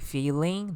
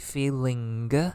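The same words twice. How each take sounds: First: It is said in a plain standard English accent. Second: It is said in an Italian accent, ending sounded.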